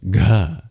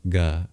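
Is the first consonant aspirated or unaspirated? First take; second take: aspirated; unaspirated. First: The consonant is released with a puff of breath. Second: The consonant is released without a puff of breath. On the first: "an aspirated guttural plosive" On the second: "just a G without an H"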